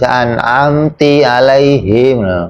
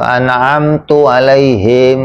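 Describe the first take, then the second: First: The verb ends with an 'i' vowel. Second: The verb ends with a 'u' vowel. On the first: "dibaca an'amti alaihim" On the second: "atau an'amtu alaihim"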